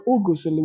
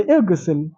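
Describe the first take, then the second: First: "Ugusil" said with u at the start and an extra u between g and s; wrong vowels. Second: "Igsil" said with a short i at the start, no vowel between g and s; correct vowel. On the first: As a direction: give "Ugusil" a u start and an inserted u. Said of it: "We don't say Ugusil". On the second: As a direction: open "Igsil" on a clear short i. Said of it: "So we say Igsil". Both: Shown as a demonstration.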